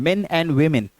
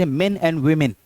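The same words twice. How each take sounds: Both takes have the same delivery.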